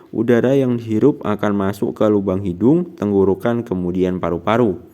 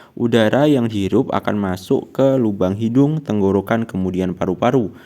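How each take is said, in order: Both takes have the same delivery.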